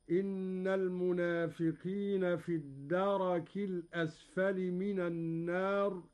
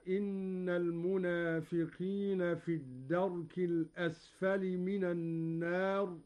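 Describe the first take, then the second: First: الدرك as darak, ra with open a; Qalun reading. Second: Said in the usual way. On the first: Shown as a demonstration. Teacher demonstrating the open ra to students, careful recitation. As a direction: say الدرك as da-rak. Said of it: "بفتح الراء". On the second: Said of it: "قوله تعالى".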